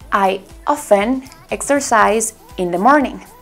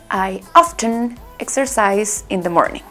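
First: The T in often is silent. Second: The T in often is pronounced.

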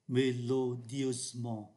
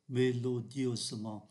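The two takes are said the same way.

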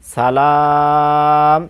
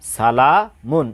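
First: The word ends abruptly on a bare 'm'. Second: The word ends with a pronounced 'un' sound. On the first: The reader stops on this word. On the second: The reading continues without stopping.

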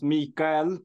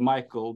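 First: The name is pronounced the Swedish way. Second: The name is pronounced the English way. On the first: This is how the name is said at home. "Here in Sweden, the name is pronounced Micael" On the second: This is how the name is said in English. "when I talk in English, I prefer to be called Micael"

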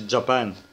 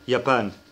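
First: The word begins with a J sound. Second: The word begins with a Y sound. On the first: The speaker calls it wrong. "ما بنقولش جابان" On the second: The speaker calls it right. "بنقول يابان"

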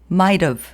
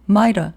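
First: The h drops but the v is kept. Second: The h and v drop, leaving only an a. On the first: "have의 h는 일단 탈락됩니다" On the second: "v도 탈락하고 a 발음만 남아요"

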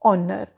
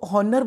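First: It begins with a vowel sound. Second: It begins with an h sound. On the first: The speaker calls it right. "Correct pronunciation" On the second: The speaker calls it wrong. "हॉनर बोलने की गलती"

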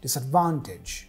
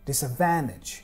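First: The A has a broad British 'ah' vowel. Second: The A has a flat American vowel. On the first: "we hear Sherlock saying disadvantage" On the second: "An American would typically say"

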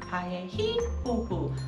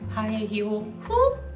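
First: The stress falls on the third syllable. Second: The stress falls on the fifth syllable.

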